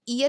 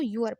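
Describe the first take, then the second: First: The word begins with a plain vowel sound. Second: The word begins with a y sound. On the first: The speaker calls it wrong. "ईयर इसको नहीं पढ़ते" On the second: The speaker calls it right. "इसको यूअर पढ़ते हैं"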